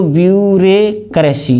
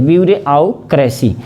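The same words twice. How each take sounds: First: ब्यूरोक्रेसी said as "byure-kresi"; ब्यूरोक्रेसी with "re" straight into "kresi"; wrong spelling pronunciation. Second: ब्यूरोक्रेसी said as "byure-au-kresi"; ब्यूरोक्रेसी chunked by its spelling, with "au"; spelling pronunciation. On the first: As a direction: leave the "au" out of ब्यूरोक्रेसी, saying "byure" then "kresi". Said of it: "ये तो बिल्कुल गलत है". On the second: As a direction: put a separate "au" after "byure" in ब्यूरोक्रेसी. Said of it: "ये सही है". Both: Shown as a demonstration.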